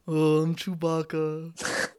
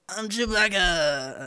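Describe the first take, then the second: First: It is said in a flat, unenthusiastic way. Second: It is said in an enthusiastic, lively way.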